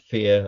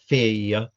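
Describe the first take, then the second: First: The word is said as one syllable. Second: The word is split into two syllables. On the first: This is how we would normally say it. "where we might sing or say one" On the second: This is how traditional singers render it. "provide two syllables where we might sing or say one"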